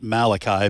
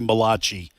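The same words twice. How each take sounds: First: The name is said with ordinary English pronunciation. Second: The name is said with an Italian-sounding pronunciation. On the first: This is the common way people say it. The speaker calls it wrong. "Most people pronounce it Malachi" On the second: The prophet is jokingly treated as Italian. The speaker calls it right. "it's actually Malachi, and it's the first Italian first Italian prophet"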